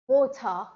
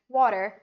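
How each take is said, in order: First: A British accent, slow, with no R. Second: An American accent, fast, with an R. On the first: "a British guy will say water" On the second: "Americans will pronounce it as water"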